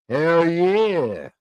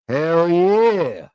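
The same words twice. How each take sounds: The two takes are said the same way.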